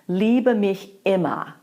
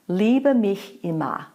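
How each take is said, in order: First: Immer begins with a hard, aggressive glottal stroke. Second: Immer begins with a gentle, soft separation.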